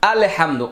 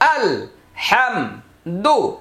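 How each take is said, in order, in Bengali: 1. প্রথম অক্ষরটি টানা, 'Allah'-এর মতো শোনায়। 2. প্রথম অক্ষরটি ছোট এবং আলাদা করে পড়া হয়। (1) "অনেকেই দেখবেন এভাবে বলে" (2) "এটাকে আলাদা করার জন্য সুযোগ হলো আল হাম দু"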